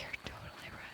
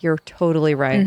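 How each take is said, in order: First: It is said slowly in a whisper. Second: It is said in a normal voice.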